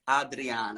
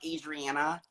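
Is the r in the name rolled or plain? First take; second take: rolled; plain. First: The r is rolled with the tongue. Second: The r is plain, not rolled. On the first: The speaker calls it right. "rolling my tongue a little bit" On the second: The speaker calls it wrong. "It's not Adriana"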